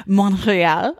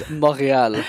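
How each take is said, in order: First: Montréal echoed with a laugh, trying the French sound; repeating Montréal. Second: Montréal said the French way, uvular r, nasal vowels. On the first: Host echoes the guest's French Montréal, laughing. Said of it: "There you go". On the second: Guest correcting the host with French Montréal. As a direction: give Montréal its French sounds. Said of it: "No, it's Montréal". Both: Shown as a demonstration.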